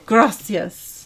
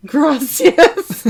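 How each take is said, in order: First: Slow, loud gringo Spanish; bad Spanish accent. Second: High, loud mock Spanish accent; bad Spanish accent. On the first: Thanking a donor in a clumsy Spanish accent. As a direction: attempt a Spanish accent, badly. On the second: Mocking own thanks to a donor in an exaggerated bad Spanish accent. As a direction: ham up a terrible Spanish accent. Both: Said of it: "Now that's a bad accent".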